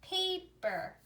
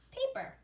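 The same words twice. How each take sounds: First: "paper" split into pa and per; teacher's segmented "paper", a small gap mid-word; syllable by syllable. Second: Said in the usual way. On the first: Shown as a demonstration. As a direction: say "paper" in two separate syllables. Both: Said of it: "let's put it together".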